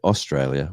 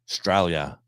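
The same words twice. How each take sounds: First: It is said fully, with all syllables clear. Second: It is said clipped, in broad Australian style.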